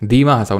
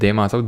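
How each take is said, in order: First: The first vowel sounds like 'ee'. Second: The first vowel sounds like 'ay'. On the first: The speaker calls it right. "दीमा हसाऊ ना कि देमा हसाऊ" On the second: The speaker calls it wrong. "ना कि देमा हसाऊ"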